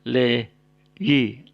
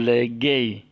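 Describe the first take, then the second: First: The middle consonant is a Y sound. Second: The middle consonant is a hard G sound. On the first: The speaker calls it right. "tapi le yi" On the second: The speaker calls it wrong. "bukan legay"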